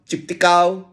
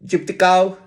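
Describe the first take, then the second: The two takes are said the same way.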